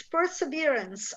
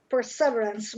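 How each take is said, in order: First: Perseverance said perse-VEER-ance; stress on third syllable. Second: Perseverance said per-SEV-erance; stress on second syllable. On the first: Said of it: "It's perseverance". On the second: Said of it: "I would have told the per". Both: Shown as a demonstration.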